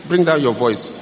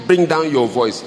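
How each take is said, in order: Both takes have the same delivery.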